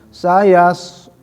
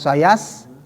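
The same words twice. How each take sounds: First: The s is heavy, with tongue raised. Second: The s is thin, with lips spread. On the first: The speaker calls it right. "mengangkat lidah ke atas" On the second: The speaker calls it wrong. "bukan sayas, bukan meringis ya"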